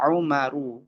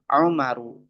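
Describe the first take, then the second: Both takes have the same delivery.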